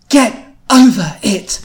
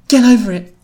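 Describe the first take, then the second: First: It is said in a firm Louise voice. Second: It is said in a mild, ordinary voice.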